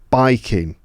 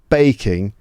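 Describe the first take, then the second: First: The first vowel sounds like 'eye'. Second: The first vowel sounds like 'ay' in 'day'. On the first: "That A sound might sound like I" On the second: "not baking"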